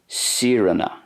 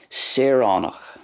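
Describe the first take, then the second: First: It has the Ulster pronunciation with less aw sound. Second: It has the Munster pronunciation with a full aw sound. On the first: "There's less of an emphasis on the aw sound for a fada in Ulster" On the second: "that's the way I'm pronouncing it as per the Munster way"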